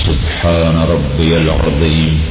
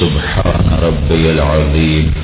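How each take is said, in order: No difference in how they are said.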